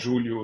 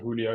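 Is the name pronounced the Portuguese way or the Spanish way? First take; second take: Portuguese; Spanish. First: The name has a Portuguese-style pronunciation. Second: The name has a Spanish-style pronunciation. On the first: The speaker calls it right. "my dad is actually um, Portuguese, so it's it's" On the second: The speaker calls it wrong. "in North America, most people pronounce it Julio because of, you know, the like Spanish Mexican"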